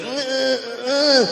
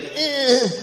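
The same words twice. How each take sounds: First: High short grunts; grunting noise. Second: High nasal grunt twice; grunting noise. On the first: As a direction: do her grunt again. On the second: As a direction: mimic her grunt. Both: Retold or imitated. Imitating the Walmart lady grunting, high grunts. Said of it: "She's literally making that noise".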